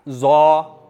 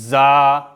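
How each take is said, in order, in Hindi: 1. अक्षर भारी है और स्वर गोल है। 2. अक्षर में खुला स्वर है और सख्त व्यंजन है। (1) "जा को पुर करेंगे तो क्या बनेगा, जौ। वो जौ नहीं होगा" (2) "दांत को थोड़ा सा पीस कर निकालेंगे, ये सख्ती का मतलब है"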